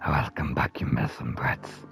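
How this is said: It is said in a rough, grinding voice. The speaker calls it right. "I did some grimy salt, like salt, like grinder voice"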